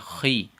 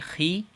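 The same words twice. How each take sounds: First: The syllable is said heavy and thick. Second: The syllable is said light and thin. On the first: The speaker calls it right. "with a little bit of heaviness in our mouths" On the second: The speaker calls it wrong. "we're not gonna say"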